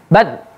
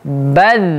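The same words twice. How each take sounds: First: The final sound is cut off abruptly. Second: The final sound is sustained and flowing. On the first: The speaker calls it wrong. "jangan kita putus bacanya" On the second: The speaker calls it right. "tapi dialirkan juga"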